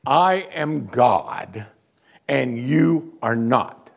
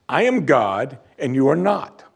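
First: Very slow, every word weighed; slow emphatic statement. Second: Said in the usual way. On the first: Shown as a demonstration. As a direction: spell it out word by word, slowly. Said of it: "I'm gonna make this as abundantly clear as I can". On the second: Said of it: "You need to understand this".

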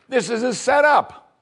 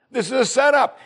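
First: High, drawn-out alarm. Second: High alarmed repeat; alarmed again. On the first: King of Israel suspecting a trap, high alarmed. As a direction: cry it out as a panicked king. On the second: King of Israel insisting it is a trap, high alarmed. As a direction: insist it, higher still. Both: Retold or imitated.

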